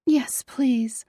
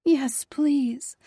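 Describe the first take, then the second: First: Pleading, whispered yes please; begging whisper. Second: Higher voiced breathy yes please. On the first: Acted. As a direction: beg for it in a whisper. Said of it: "I begged". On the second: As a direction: breathe it out eagerly. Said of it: "I breathed".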